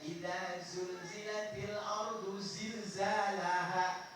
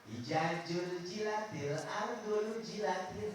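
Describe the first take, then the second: First: The consonants are pronounced as Z sounds. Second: The consonants are pronounced as J sounds. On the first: The speaker calls it right. "Itu yang benar" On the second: The speaker calls it wrong. "Kalau nggak benar dibaca jim semua ngaco"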